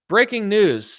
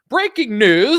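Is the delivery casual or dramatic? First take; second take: casual; dramatic. First: It is said in a relaxed, casual tone. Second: It is said with dramatic, alarming inflection. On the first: "I guess you wouldn't want to watch something that's like, hey, breaking news" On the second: "I don't normally talk like this when I'm on television"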